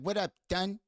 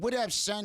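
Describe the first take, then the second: First: The last word begins with a lisped TH sound. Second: The last word begins with a clear S sound. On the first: "he couldn't say son" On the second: "instead of saying"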